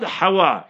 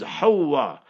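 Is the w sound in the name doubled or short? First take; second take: short; doubled. First: The w sound is short and single. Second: The w sound is doubled and held longer. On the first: The speaker calls it wrong. "The word is not Hawa" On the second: The speaker calls it right. "it's Hawa. Tajdeed on the wow. H-A-W-W-A"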